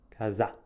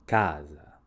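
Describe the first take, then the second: First: The stress is on the second syllable. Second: The stress is on the first syllable. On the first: The speaker calls it wrong. "Se l'accento si trovasse sulla seconda sillaba... dovremmo pronunciare questa parola casa" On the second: The speaker calls it right. "L'accento tonico si trova sulla prima sillaba, quindi leggiamo casa"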